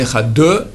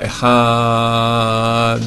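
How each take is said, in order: First: The final d is followed by an extra vowel. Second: The a is lengthened and ends in a clear d. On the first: The speaker calls it wrong. "ni Ehad deux" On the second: The speaker calls it right. "on rallonge dans le A"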